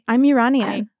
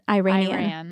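First: The word is said the native way. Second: The word is said the anglicized way. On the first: The speaker calls it right. "my small rebellion, I think, is to say I'm Iranian" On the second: The speaker calls it wrong. "How would somebody say it incorrectly? ... People say Iranian"

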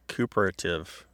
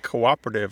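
First: The first two vowels merge into one syllable. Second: The first two vowels are said as separate syllables. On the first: The speaker calls it wrong. "like cooperative" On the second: The speaker calls it right. "you don't pronounce a word like cooperative"

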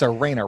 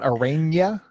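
First: The last syllable is a plain 'na' sound. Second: The last syllable is said like 'nya'. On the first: The speaker calls it right. "it's Arena, right?" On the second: The speaker calls it wrong. "Not Arena? ... there's no [name]"

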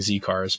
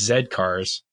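First: The letter is said as 'zee'. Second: The letter is said as 'zed'. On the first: The speaker calls it wrong. "we've been pronouncing it wrong for so long" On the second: The speaker calls it right. "but it's Zed cars"

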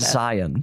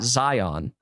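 First: The word is said in a relaxed, reduced way. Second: The word is said fully and carefully. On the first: The speaker sounds like a local. The speaker calls it right. "Do the lazy pronunciation of Zion" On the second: The speaker is not from the area. The speaker calls it wrong. "you can tell someone's not from Utah when they call it"

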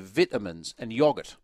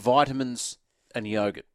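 First: It is pronounced the English way. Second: It is pronounced the Australian way. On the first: The speaker calls it wrong. "you say vitamins and yoghurt" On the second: The speaker calls it right. "Where it's clearly vitamins and yogurt"

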